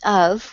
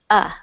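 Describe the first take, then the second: First: The word is said in full with its f. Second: The word is reduced to a short vowel. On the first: "instead of saying out of" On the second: "we often say just uh, we delete the f"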